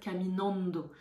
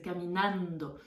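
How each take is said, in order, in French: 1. Les A ne sont pas assez ouverts. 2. Les A sont bien ouverts. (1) "souvent les francophones vont avoir tendance à dire caminando" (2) "il faut vraiment ouvrir, c'est caminando"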